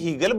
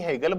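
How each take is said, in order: First: The first vowel is a long 'ee' sound. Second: The first vowel is an 'ay' sound. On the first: "आप में से कई हीगल बोलते हैं" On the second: "कई हेगल बोलते हैं"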